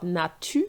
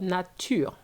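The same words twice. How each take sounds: First: Natu with the R dropped, no final sound; clipped natu, ending on the u; wrong nature. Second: Nature with a light French R at the end, nah-TUR; right nature. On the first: Teacher shows the mistake to avoid, wrong pronunciation. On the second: Teacher shows the correct ending, light final R. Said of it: "a little R at the end". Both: Shown as a demonstration.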